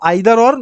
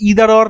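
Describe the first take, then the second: First: The first vowel of 'either' is 'eye'. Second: The first vowel of 'either' is 'ee'. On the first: "আবার কেউ কেউ আইদার or" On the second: "যেমন আমরা দেখি ইদার or"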